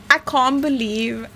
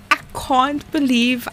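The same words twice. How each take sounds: The two takes are said the same way.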